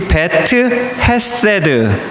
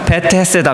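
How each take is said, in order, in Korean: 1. 두 단어는 따로 발음해요. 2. 두 단어는 이어서 하나처럼 발음해요.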